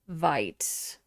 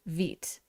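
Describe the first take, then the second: First: The vowel is a long eye sound. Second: The vowel is a long ee sound. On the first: The speaker calls it wrong. "I was putting a hard I" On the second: The speaker calls it right. "to rhyme with feet"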